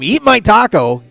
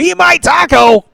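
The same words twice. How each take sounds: First: It is screamed loudly. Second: It is screamed even louder. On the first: "If you scream" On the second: "scream it louder as you go"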